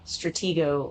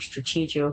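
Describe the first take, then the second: First: The middle does not sound like 'strategy'. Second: The middle sounds like the word 'strategy'. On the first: "however you want to pronounce that" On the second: "I've always pronounced it, um, Strategio because it's like, um, strategy"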